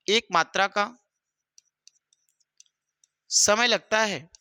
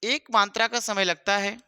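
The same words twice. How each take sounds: First: Slow, word by word, with long pauses; slow dictation. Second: Said in the usual way. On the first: Shown as a demonstration. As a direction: dictate it so students can write along. (धीमे-धीमे लिखवाते हुए) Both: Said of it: "तो ध्यान से लिख लेंगे".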